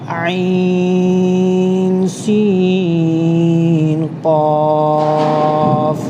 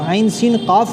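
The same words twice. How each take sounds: First: The vowels in each letter name are drawn out. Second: The vowels in each letter name are short. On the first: The speaker calls it right. "तीनों को खींचकर पढ़ेंगे" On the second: The speaker calls it wrong. "आइन सीन क़ाफ नहीं पढ़ेंगे"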